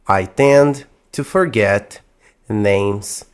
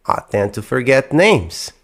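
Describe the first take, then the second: First: The sentence is spoken a little more slowly. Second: The sentence is spoken a little more quickly. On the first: "na primeira vez eu vou falar um pouco mais devagar" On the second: "na segunda um pouco mais rápido"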